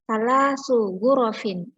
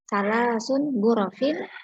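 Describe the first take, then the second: First: Only the second word ends in an n sound. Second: Both words end in an n sound. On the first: The speaker calls it right. "itu yang benar" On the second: The speaker calls it wrong. "ada yang membaca salah sun gurofin"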